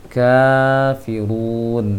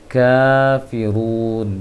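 The two takes are said the same way.

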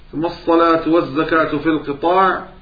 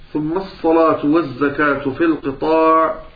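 The two takes are said the same way.

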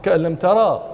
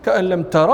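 First: The final vowel is lengthened. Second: The final vowel is short. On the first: The vowel is stretched to fit the verse. "لكن الفتحة أشبعت فقيل" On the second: This is the regular form. "والقياس"

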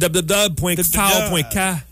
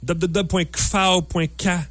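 First: The name is spelled out as separate letters. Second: The letters are blended and read as one word.

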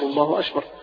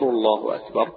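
First: The k is over-breathy and sounds like sh. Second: The k is a clear, light k sound. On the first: The speaker calls it wrong. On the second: The speaker calls it right.

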